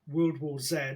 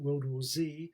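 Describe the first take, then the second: First: The Z is said the British way, zed. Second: The Z is said the American way, zee.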